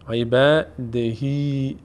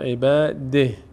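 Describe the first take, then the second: First: The word ends with a lengthened final vowel. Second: The word ends abruptly without a final vowel. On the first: The reciter continues into the next words. "اگر وصل کردیم عبادهی" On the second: The reciter stops at this point. "اگر وقف کردیم میشه عباده"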